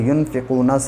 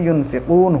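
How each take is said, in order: First: The word ends with a short final 'a' vowel. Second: The word ends on 'n' without a vowel. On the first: The recitation continues without stopping. "ज़बर को गिरा देते" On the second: The reciter stops at the end of the verse. "ज़बर को गिरा देते और युनफिकूना से युनफिकून हो जाता"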